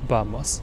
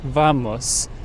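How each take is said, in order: First: The word begins with a B sound. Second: The word begins with a V sound. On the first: The speaker calls it right. "the actual pronunciation is vamos, not V, but B" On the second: The speaker calls it wrong. "We always say vamos, right?"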